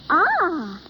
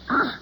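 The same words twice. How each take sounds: First: It sounds pleased. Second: It sounds disgusted.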